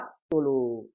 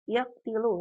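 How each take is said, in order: First: The vowel after the t is u. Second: The vowel after the t is i. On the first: The speaker calls it right. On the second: The speaker calls it wrong.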